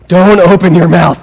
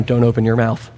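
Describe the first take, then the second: First: Loud, forceful mock scolding; exasperated warning. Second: Said in the usual way. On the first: Reader to Abraham before he answers, loud exasperated warning. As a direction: bear down hard, as if stopping a blunder.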